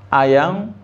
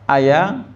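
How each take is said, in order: The two takes are said the same way.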